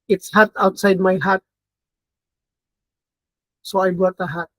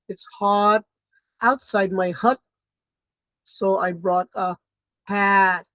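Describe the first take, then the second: First: Hot, hut and hat share one vowel. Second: Hot, hut and hat have distinct vowels. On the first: "teachers might pronounce them all the same way" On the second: "So hot, hut, hat"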